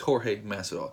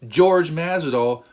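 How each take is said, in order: First: The first name begins with an h-like sound. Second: The first name begins with an English j sound. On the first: The speaker calls it right. "the J has a ha sound" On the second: The speaker calls it wrong. "you are wrong"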